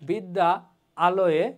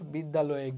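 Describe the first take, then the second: First: Two separate words with a break between them. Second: One smoothly joined word with no break. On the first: The speaker calls it wrong. "মনে হয় থেমে থেমে বলতেছি" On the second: The speaker calls it right. "শুনতেও শ্রুতিমধুর হয়, বলতেও সহজ হয়"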